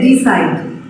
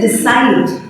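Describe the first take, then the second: First: The stress is on the first syllable. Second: The stress is on the second syllable. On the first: The speaker calls it wrong. "you will never say decide" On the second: The speaker calls it right. "You always say decide. So you put that additional stress on the second syllable"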